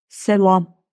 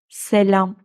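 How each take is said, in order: First: The l and a sound thick and back. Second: The l and a sound thin and fronted. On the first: The speaker calls it wrong. "Eğer ince okunmasaydı bakın şöyle olurdu" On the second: The speaker calls it right. "Ama hayır, ince okunuyor"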